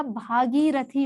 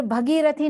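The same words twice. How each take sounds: First: भागीरथी with a long, slow first vowel; correct form. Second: भगीरथी with a short first vowel; wrong form. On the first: Teacher giving the right word, भागीरथी slowly with long "bhaa". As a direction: stretch भा in भागीरथी. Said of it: "भागीरथी होता है". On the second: Teacher citing the error, भगीरथी opening on short "bha". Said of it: "भगीरथी नहीं होता". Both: Shown as a demonstration.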